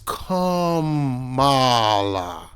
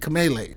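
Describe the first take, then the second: First: The name ends with a 'luh' sound. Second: The name ends with a 'lay' sound. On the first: The speaker calls it right. "It's Kamala" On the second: The speaker calls it wrong. "Kamele, like Pele"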